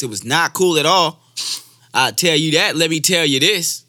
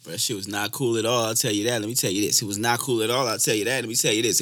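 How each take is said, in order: First: High, loud emphatic repeat; more energy. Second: Said in the usual way. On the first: Shown as a demonstration. Imitating Doctor Umar's repeated lines, loud high-energy third take. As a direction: punch it up, raised in pitch and much louder. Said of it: "have more energy the third time". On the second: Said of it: "Just repeat things".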